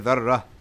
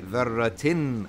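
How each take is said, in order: First: The word ends in a plain vowel, no -tin. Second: The word ends with an added -tin sound. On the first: The word is said on its own, at a stop. "if you pronounce this by itself, you would say" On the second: The word is joined to the words that follow. "when you continue, you say"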